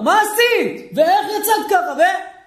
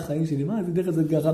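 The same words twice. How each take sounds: First: High, scolding mock yell; a husband blowing up, high and sharp; angry shouting. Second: Soft, lower, gentle mock sweetness; tender, loving. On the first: Husband angry at his wife, in a high mock scolding yell. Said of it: "הוא מפעיל את הצעקות". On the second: Husband asks his wife gently, in a soft loving voice. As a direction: say it softly, as if to your darling. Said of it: "הוא לא יכול להגיד לה".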